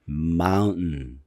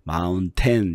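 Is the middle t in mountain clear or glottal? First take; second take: glottal; clear. First: The middle t is a catch in the throat. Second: The middle t is clearly released. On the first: The speaker calls it right. "이렇게 목에서 성대 목에서 으 소리를 내요" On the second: The speaker calls it wrong. "mountain 이렇게 안 하죠"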